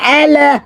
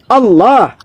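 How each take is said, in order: First: It is said plainly, without Arabic recitation articulation. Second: It is said with careful Arabic recitation articulation. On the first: This is how Christians say it. The speaker calls it wrong. "Kalau kalian kan Allah" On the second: This is how it is said in Islam. The speaker calls it right. "tajwid ada tajwidnya"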